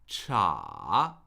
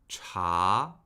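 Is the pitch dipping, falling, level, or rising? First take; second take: dipping; rising. First: The pitch falls and then rises. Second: The pitch rises steadily. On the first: "Third tone" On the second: "Now the second tone"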